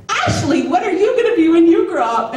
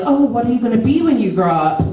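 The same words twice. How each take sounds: First: Put-on high, sing-song adult-to-child question; gushing neighbor lady. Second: Said in the usual way. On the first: New neighbor's wife asking a little girl, gushing. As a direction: imitate a grown-up cooing at a kid.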